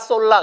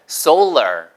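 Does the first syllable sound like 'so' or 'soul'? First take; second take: so; soul. First: The first syllable is a short, flat 'sol'. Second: The first syllable glides like 'soul'. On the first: The speaker calls it wrong. "보통은 상표로도 많이 나와서 뭐 솔라 솔라 그러는데 그게 아니고요" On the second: The speaker calls it right. "소울러예요. 보세요"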